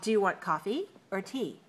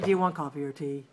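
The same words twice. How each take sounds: First: The voice rises on coffee, falls on tea. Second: The voice does not fall at the end. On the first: The speaker calls it right. "That's a choice, right?" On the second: The speaker calls it wrong. "We don't make questions like that"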